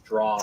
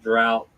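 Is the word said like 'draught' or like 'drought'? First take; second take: draught; drought. First: The word is said like 'draught'. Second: The word is said like 'drought'. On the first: The speaker calls it right. "That word is draught" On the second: The speaker calls it wrong. "you both pronounced it drought"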